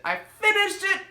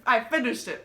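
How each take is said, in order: First: High, triumphant cry of "finished". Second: Said in the usual way. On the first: Real, not acted. Reader cheering to viewers that she finished the book, triumphant. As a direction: celebrate finishing it, pitch jumping up.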